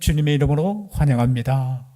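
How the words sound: It is spoken in a Seoul accent. It sounds moving and full of grace. "서울, 저, 저 위쪽 목사님들 설교 들어보셔요"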